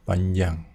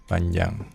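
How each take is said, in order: The two takes are said the same way.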